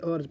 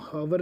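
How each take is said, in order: First: The word starts with a vowel, no h. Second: The word starts with an audible h sound. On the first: The speaker calls it right. "आर्स पढ़ते हैं" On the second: The speaker calls it wrong. "अब इसमें हम हावर नहीं पढ़ते"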